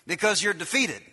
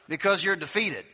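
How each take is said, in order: Both takes have the same delivery.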